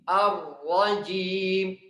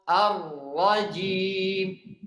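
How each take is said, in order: The two takes are said the same way.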